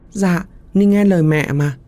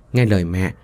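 First: Put-on high sweet eerie child voice; ghost child. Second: Said in the usual way. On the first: Ghost child promising mother to obey, high and sweet. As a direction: answer like an obedient little ghost.

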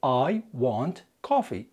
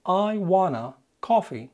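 First: "I want coffee" said slowly with a full clear want; drawn-out careful "want" with no to; slow correct form. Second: "I wanna coffee" drawn out slowly with wanna; slow deliberate "wanna" before coffee; slow wrong example. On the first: Teacher giving the correct sentence to learners, slowly. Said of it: "الجملة قبل الاختصار المفروض". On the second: Teacher showing the wrong form to learners, slowly. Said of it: "ما ينفعش تقول". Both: Shown as a demonstration.

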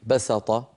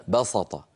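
First: "بسط" with a plain, thin s; light sīn. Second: "بسط" with a heavy emphatic ṣ; thickened sīn. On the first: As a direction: say "بسط" as basaṭa, s not ṣ. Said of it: "أصلها في اللغة بالسين". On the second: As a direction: say "بسط" as baṣaṭa, dark and full. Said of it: "بعض العرب تفخم السين". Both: Shown as a demonstration.

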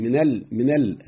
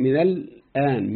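First: من ال clipped, the nun swallowed; nun dropped. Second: من الآن slow, with the nun kept; full form. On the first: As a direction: say من ال twice with no nun. ("من ال" بحذف النون مرتين) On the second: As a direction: say من الآن slowly, nun clear. ("من الآن" ببطء مع النون واضحة) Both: Shown as a demonstration. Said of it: "شوف فرق".

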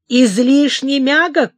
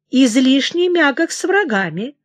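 First: Loud slow indignant outburst; angry shout. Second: Said in the usual way. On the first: A narrator's reading. King hurls his mother's words back, angry shout. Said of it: "крикнул он". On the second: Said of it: "она поспешила сказать".

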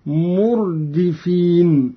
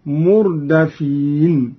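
First: Said in the usual way. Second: "مردفين" as murdafīn, with an a after the d; fatha on dal. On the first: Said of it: "قرأ قالون بفتح الدال". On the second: Shown as a demonstration. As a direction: recite "مردفين" slowly as mur-da-feen. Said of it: "بفتح الدال اسم مفعول هكذا".

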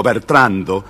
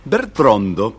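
First: Said in the usual way. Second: "Bertrando" said as "Bertrondo" with an O; slip of the tongue. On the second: Shown as a demonstration. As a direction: catch the king's O in "Bertrando". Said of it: "di-, digo". ("Bertrando" dicho como "Bertrondo")

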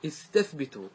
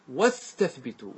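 First: استثبتوا spoken alone, opening on a clear glottal i sound; starting with hamza. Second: واستثبتوا with no hamza, the wa gliding straight into the s, said slowly; slow واستثبتوا with the hamza swallowed; hamza dropped in linking. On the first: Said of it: "إذا أمرت الجماعة بالاستثبات، إيش تقول لهم؟". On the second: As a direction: run the waw of واستثبتوا into the s so no glottal stop is heard. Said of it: "صله بكلمة قبلها، جيب قبله بالواو". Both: Shown as a demonstration.

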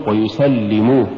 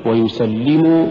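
First: ويسلموا with the final مو pushed; split-sounding مو in ويسلموا; wrong stress. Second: ويسلموا as one word, push on لِّ; slow ويسلموا, ending not split off; correct recitation. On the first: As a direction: punch the ending of ويسلموا. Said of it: "ولا تقل". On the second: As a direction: stress the doubled ل in ويسلموا. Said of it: "قل". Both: Shown as a demonstration.

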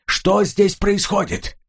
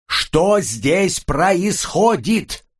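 First: Calling out, much higher and slow; shouted. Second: Slow emphatic shout. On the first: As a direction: shout the question over the noise. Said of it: "он крикнул". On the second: Repeats question over ear-protectors. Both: Acted.

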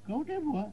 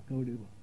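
First: High, questioning rustic voice; puzzled local. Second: Low, soft repeat of the name; musing local. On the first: Paan seller asked for a temple, high puzzled query. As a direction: echo the name high, as a question. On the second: Paan seller not recognising the name, low pondering mumble. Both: Acted.

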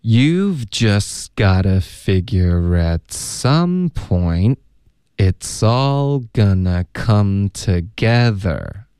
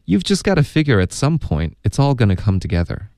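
First: Very slow, stretched linked phrases; drawn-out teacher's demonstration, pausing mid-sentence; slow model reading. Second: Fluent, linked read-through at everyday pace; quicker final demonstration, words linked; natural-speed model. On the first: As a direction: read it at half speed for learners. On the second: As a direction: run the whole sentence together without stopping. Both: Shown as a demonstration. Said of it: "那还要请老师多读几遍".

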